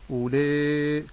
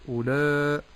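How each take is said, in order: First: The long vowel is tilted toward an 'e' sound. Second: The long vowel is heavy and dark. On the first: "ولا أميل في المد فأقول أولاء فهذا خطأ" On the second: "ولا أفخم المد فأقول أولاء هذا خطأ أيضا"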